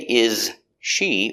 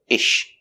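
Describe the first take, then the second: First: The s of is is heard separately. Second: The s merges into the sh sound. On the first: The speaker calls it wrong. "we don't say is she" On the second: The speaker calls it right. "we say ish"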